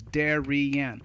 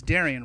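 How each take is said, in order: First: "Darian" broken into three syllables; "Darian" as Da-ri-an, evenly spaced; split into syllables. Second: Said in the usual way. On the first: Shown as a demonstration. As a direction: say "Darian" slowly, one beat per syllable. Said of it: "But it's three syllables". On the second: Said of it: "That's one word".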